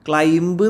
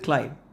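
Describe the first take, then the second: First: The word ends with an audible b sound. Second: The word ends on the m sound, no b. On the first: The speaker calls it wrong. "ക്ലൈംബ് എന്ന് പറയരുത്" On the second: The speaker calls it right. "ബി silent ആട്ടോ"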